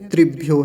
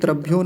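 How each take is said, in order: First: The first syllable is said with the vocalic r. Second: The first syllable is said as plain 'tra'. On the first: The speaker calls it right. "त्रिभ्यो है" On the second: The speaker calls it wrong. "तो ये त्रभ्यो नहीं है"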